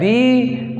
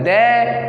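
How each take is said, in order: First: The word ends in an 'ee' vowel. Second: The word ends in an 'ay' vowel. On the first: "कोई बोलता है दी" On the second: "कोई बोलता है दे"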